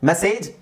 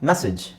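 First: The second syllable is stressed. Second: The second syllable is unstressed. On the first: The speaker calls it wrong. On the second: The speaker calls it right.

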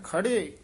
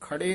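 First: The word is said softly and heavily. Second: The word is said lightly. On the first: The speaker calls it right. "ਪੋਲਾ ਭਾਰਾ ਬੋਲਣਾ" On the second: The speaker calls it wrong. "ਇਹ ਖੜੇ ਨਹੀਂ ਕਹਿਣਾ"

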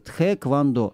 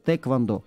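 First: An h sound follows the first t. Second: No h sound follows the first t. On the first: This is the form used in official spelling. "как сейчас пишется" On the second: This is how native speakers say it. "они говорят без буквы «Х», просто тэквондо"

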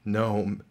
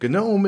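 First: The name is said the alternative, accepted way. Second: The name is said the official, technical way. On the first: "they do not care if you say GNOME" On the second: "GNOME is the technical pronunciation"

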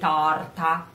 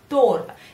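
First: The o vowel is open, near an a. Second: The o vowel is closed and rounded. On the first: It means something turned. The speaker calls it wrong. "You don't say tarta" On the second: It means cake. The speaker calls it right. "you say torta with this o, much closer here"

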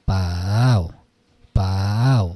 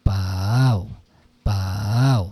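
Both takes have the same delivery.

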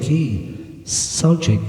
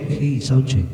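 First: The s sounds in the voice are strong. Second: The s sounds in the voice are weak. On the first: The speaker calls it right. "hanggang dyan lang para sa akin" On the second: The speaker calls it wrong. "yung S niya ay kulang para sa akin"

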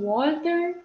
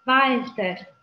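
First: The word begins with a rounded W sound. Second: The word begins with a V sound. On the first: The speaker calls it wrong. "să nu citim cu U, da? Deci nu Walter" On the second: The speaker calls it right.

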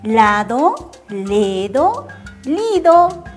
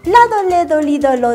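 First: The words are said slowly and carefully. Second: The words are said quickly in a rush. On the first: "¿Lo digo despacito?" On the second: "Ahora, rápido"

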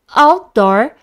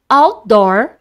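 No difference in how they are said.

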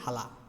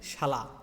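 First: The word begins with an 'h' sound. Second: The word begins with an 'sh' sound. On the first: "আমরা কী কই?" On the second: "তালিবাদস দন্তাস থাকলে এটা হ উচ্চারণ হয়"

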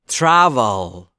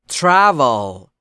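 No difference in how they are said.

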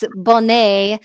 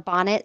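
First: The name is pronounced the French way. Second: The name is pronounced the English way.

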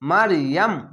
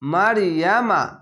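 First: The word ends on the final consonant. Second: The word ends with a final vowel. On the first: The reader stops at this word. "শেষ অক্ষর সাকিন দিয়ে ইয়াম বলে থেমে যেতে হবে" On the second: The reading continues without stopping. "মারিয়ামা এখানে তো আছে"

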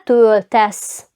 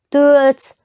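First: The vowel before the ending is kept. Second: The vowel before the ending is dropped. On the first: This is the form the rules require. The speaker calls it right. "«Ое» залишили" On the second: This is the everyday colloquial form. The speaker calls it wrong. "трошки складно «лтс» вже три приголосні"

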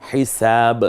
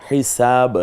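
No difference in how they are said.

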